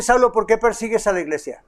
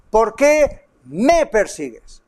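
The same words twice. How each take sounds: First: Said in the usual way. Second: "me" lifted and held in "¿Por qué me persigues?", said slowly; stress on me. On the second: Shown as a demonstration. Preacher showing the Lord took it personally, stress on "me". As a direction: lean hard on "me". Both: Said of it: "Fíjese que no dice".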